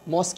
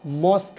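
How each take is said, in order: First: मॉस्क shown as the common wrong version; wrong pronunciation. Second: मॉस्क said carefully as "mosk", the correct way; right pronunciation. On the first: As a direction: mimic how people wrongly say मॉस्क. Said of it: "बहुत सारे लोग गलत बोलते हैं". (गलत तलफ़ुज़ वाला मॉस्क) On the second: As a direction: say मॉस्क the proper English way, one clear syllable. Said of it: "इसकी right pronunciation". (सही तलफ़ुज़ में मॉस्क) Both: Shown as a demonstration.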